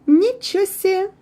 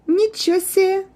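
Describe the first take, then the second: The two takes are said the same way.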